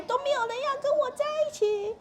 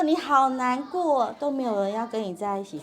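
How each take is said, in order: First: Very high, put-on upset child voice; 生气的孩子. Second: 让人觉得被听懂. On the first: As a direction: whine it high like a child having a tantrum. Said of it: "所以他生气的时候". (模仿孩子生气时尖着嗓子抱怨) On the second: Shown as a demonstration. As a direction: stretch the feeling word, then calmly echo their complaint. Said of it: "他就会觉得被听懂". (拉长前半句、平稳共情地重述)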